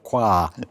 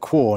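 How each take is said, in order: First: The word ends in an 'ah' vowel. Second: The word ends in an 'oh' vowel. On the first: The speaker calls it wrong. "not qua" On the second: The speaker calls it right. "That's why we pronounce it quo"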